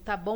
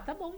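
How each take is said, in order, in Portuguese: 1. Soa irritado e seco. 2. Soa calmo e relaxado. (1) "acabou, tô brava, não fala comigo" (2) "de boa, tô, tô tranquilo, né?"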